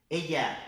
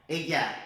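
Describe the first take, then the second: No difference in how they are said.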